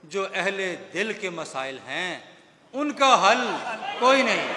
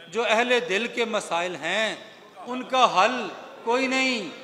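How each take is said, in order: Both takes have the same delivery.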